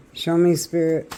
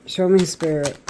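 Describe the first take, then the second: No difference in how they are said.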